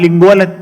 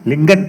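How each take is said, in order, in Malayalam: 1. ആ പേരിൽ ഒരു അധികമായ l ശബ്ദമുണ്ട്, അതിനാൽ മൂന്ന് അക്ഷരം. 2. ആ പേരിൽ മധ്യത്തിൽ l ശബ്ദമില്ല, അതിനാൽ രണ്ട് അക്ഷരം. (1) "ഇടയ്ക്കൊരു എല്ലുണ്ടല്ലോ" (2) "ലിങ്കൻ എന്ന് വായിക്കാനൊന്നും ആളുകൾക്ക് അറിയില്ല"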